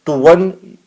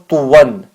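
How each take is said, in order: First: The word ends with an n sound. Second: The word ends with an n sound.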